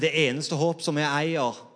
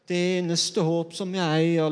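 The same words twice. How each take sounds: First: The phrase is said with a natural intonation. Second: The phrase is said with an odd intonation. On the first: The hope is the one true hope worth holding. The speaker calls it right. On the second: The hope sounds meagre, as if it were all that is left. The speaker calls it wrong.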